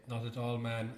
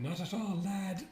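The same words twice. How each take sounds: First: Said in the usual way. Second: Higher-pitched teasing imitation; mock the co-host's take, pitched up; mimicking the co-host. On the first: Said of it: "when I said". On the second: Co-host teases partner over a misquoted line, mimicking. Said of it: "you said".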